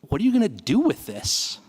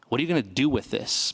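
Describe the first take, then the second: First: It sounds joyful and playful. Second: It sounds accusing and demanding.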